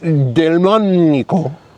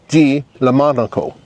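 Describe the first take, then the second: First: The name is said as one smooth word. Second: The middle of the name sounds like lemon. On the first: "It's Delmonico" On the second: "or Di Lemonico. It depends on how you want to pronounce it"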